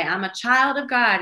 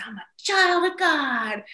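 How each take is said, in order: First: Higher, louder affirmation for repeating; mom leading affirmations. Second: Put-on high, drawn-out excited kid's cry; excited little son. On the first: Retold or imitated. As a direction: proclaim it for a child to echo. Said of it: "I'll say". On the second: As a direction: proclaim it like a thrilled small boy. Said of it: "he gets so excited".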